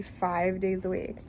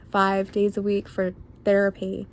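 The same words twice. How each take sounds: First: Said in the usual way. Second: "Five days" said louder, punched for emphasis; emphatic repeat. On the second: Real, not acted. Telling viewers they heard her right, emphatic "Five days".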